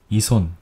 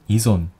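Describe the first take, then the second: First: The middle consonant is a voiceless s sound. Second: The middle consonant is a voiced z sound. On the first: "이손 또는 이존" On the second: "이손 또는 이존"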